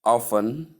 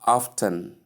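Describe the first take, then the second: First: "often" as OFF-un, silent T; T left out. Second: "often" as OFF-tun, T heard; T sounded. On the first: Teacher contrasts two ways of saying often, silent T. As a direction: go straight from F to N in "often". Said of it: "omitting the T". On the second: Teacher contrasts two ways of saying often, T pronounced. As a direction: put a clear T after the F in "often". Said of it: "not often". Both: Shown as a demonstration.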